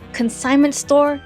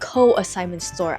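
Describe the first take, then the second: First: The word begins with 'con' followed by 'signment'. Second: The word begins with 'co' followed by 'assignment'. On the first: The speaker calls it right. "It is consignment store" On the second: The speaker calls it wrong. "not co-assignment store"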